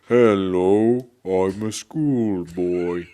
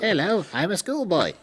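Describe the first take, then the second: First: It is said very slowly. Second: It is said very fast.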